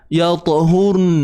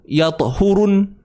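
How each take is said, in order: First: The word ends on a bare n sound. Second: An extra u vowel comes before the n.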